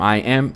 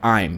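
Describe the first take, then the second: First: It is said as two separate words. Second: It is said joined as one syllable.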